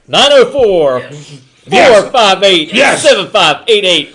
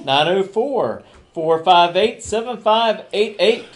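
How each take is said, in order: First: It is said with high energy. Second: It is said with low energy.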